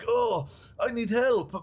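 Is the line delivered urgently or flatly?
urgently. It is said urgently, fitting an epic moment.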